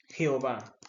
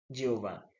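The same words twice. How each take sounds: First: The name starts with a throaty, raspy sound. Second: The name starts with a soft Y sound. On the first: This is how it is said in Latin America. "En Latinoamérica lo pronunciamos con J" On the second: This is how it is said in Hebrew. "en el hebreo no se utiliza la J, sino que se utiliza la Y"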